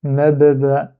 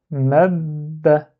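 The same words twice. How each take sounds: First: Mab ba, with the mouth reopened between the two parts; wrong split reading. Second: "Mab" said as one held syllable with the mouth kept shut on the b; correct joined reading. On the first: Teacher shows pupils the wrong way, split in two. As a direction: says "mab ba" as two separate syllables, the wrong way. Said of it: "On dit pas". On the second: Teacher shows pupils the correct way, mouth closed on the b. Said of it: "on bloque, on ferme la bouche". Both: Shown as a demonstration.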